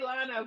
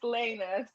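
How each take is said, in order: First: The syllable is said as 'lah-na'. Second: The syllable is said as 'lay-na'. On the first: This is how other people commonly say the name. The speaker calls it wrong. "a lot of people say Lana" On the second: This is the name's actual pronunciation. The speaker calls it right. "but it's Lena"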